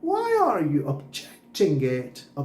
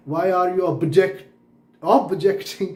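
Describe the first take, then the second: First: Slow, 'objecting' said ob-JECT-ing; stress on JECT. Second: 'objecting' said OB-ject-ing, louder first syllable; wrong stress on OB. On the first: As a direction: punch the middle syllable of 'objecting', slowly. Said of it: "जेक्ट पे आना चाहिए". ('objecting' में JECT पर ज़ोर, धीरे) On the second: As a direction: punch the 'ob' at the start of 'objecting'. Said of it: "अब पे जोर नहीं आया ना". ('objecting' में गलती से OB पर ज़ोर) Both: Shown as a demonstration.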